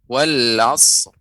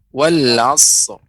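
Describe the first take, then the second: First: The final r is bare and heavy. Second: The same.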